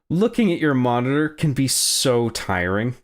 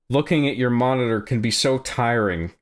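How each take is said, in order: First: It is read in a mocking, sarcastic tone. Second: It is read in a plain, neutral tone.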